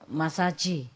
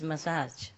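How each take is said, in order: First: It is said with a heavy Chinese accent. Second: It is said with an English pronunciation.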